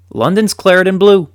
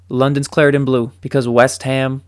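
First: High, loud, triumphant proclamation; proud announcement. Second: Said in the usual way. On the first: Real, not acted. Fan proudly telling viewers West Ham rules London, triumphant. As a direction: announce it like a stadium chant. Big reveal of West Ham's success.

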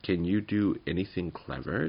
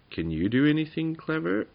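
First: Said in the usual way. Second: High, pointed little goblin voice; raised-pitch creature asking back; little goblin's question. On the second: A narrator's reading. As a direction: ask it up high as the small goblin. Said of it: "asked Tuppenny".

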